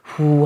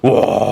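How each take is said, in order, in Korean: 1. 부드럽고 살살 내쉬는 숨결입니다. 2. 강하고 세게 뿜는 숨입니다. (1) "민들레 씨앗 불듯이 후 하면은 너무 그 맛이 안 살잖아요" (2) "이 정도 요렇게 정도만 하셔도"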